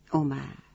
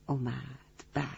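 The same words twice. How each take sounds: First: Said in the usual way. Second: اومد repeated much softer, in a distant hushed voice; soft echo. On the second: Shown as a demonstration. Storyteller echoes اومد softly for the children. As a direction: let اومد fade like an echo. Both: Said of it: "repeated word, second take differs".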